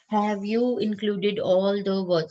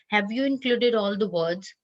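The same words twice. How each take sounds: First: Every word is stressed separately, in a choppy way. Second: The words flow together in one smooth phrase. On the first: The speaker calls it wrong. "this is like giving stress on every word" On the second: The speaker calls it right. "this is one chunk"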